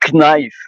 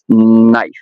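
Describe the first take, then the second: First: The initial K sound is pronounced. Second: The initial K sound is silent. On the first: "if I have to pronounce it as a French word, it will be knife" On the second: "in English it's knife, as if the, the K was not existing"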